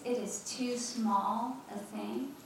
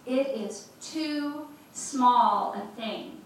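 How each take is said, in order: First: Said in the usual way. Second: "it is too small a thing" heel langzaam en luider, elk woord los; emphatic slow. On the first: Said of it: "do you see that phrase". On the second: Shown as a demonstration. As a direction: leg nadruk op "it is too small a thing", traag en luid. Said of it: "Come on".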